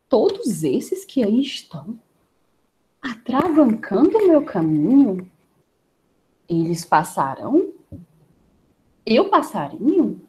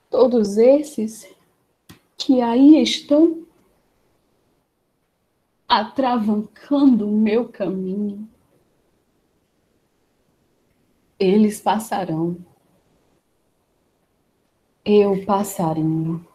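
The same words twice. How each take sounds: First: It is said with doubt. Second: It is said with sadness.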